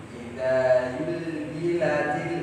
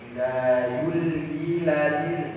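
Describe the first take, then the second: Both takes have the same delivery.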